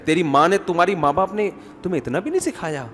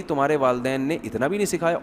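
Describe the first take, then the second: First: Mock reproach from a mother-in-law; lightly acted taunt, rising and falling; scolding mother-in-law. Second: Soft, composed mother-in-law taunt; mock-saintly, quietly reproachful; very calmly. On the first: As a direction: needle the daughter-in-law reproachfully. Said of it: "ساسیں کہہ رہی". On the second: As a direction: slip the jab in gently. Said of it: "بڑے آرام سے کہے گی".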